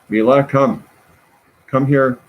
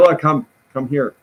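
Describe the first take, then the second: First: It is said in a gentler tone. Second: It is said in a stern tone.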